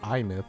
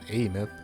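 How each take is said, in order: First: The name starts with an I sound. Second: The name starts with an A sound. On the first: The speaker calls it right. "It's I, not A" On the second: The speaker calls it wrong. "calling her name wrong this entire time"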